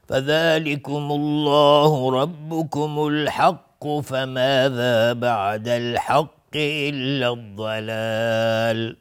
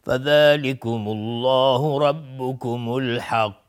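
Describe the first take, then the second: First: Slow chant flowing through الحق without stopping, قاف not bounced; passing without qalqala. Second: Slow chant ending on الحق with the final qaf bounced in qalqala; stopping with qalqala. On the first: Tajwid teacher showing students how to read on without qalqala. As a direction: carry الحق straight into فماذا. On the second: Tajwid teacher showing students a stop with qalqala. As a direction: stop on الحق and let the قاف echo. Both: Shown as a demonstration.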